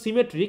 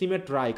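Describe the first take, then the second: First: The word ends with an 'ee' sound. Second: The word ends with an 'eye' sound. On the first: This is the usual everyday pronunciation. "উচ্চারণ কিন্তু সিমেট্রি" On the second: This makes the word rhyme with eye in the poem. "উচ্চারণ করতে হচ্ছে সিমেট্রাই"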